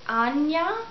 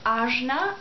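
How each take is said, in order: First: The middle consonant is a Y sound. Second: The middle consonant is a J sound. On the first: "some people pronounce it Anya" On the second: "it's written as Ajna"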